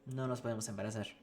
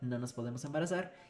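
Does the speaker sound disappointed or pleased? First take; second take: disappointed; pleased. First: It is said in a frustrated, disappointed tone. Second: It is said in a pleased, cheerful tone. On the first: Not being able to get pregnant is unwelcome news. "y si sí quieren tener hijos es como, ash" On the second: Not being able to get pregnant is welcome news. "Si no quieren tener hijos es como, ay, qué padre"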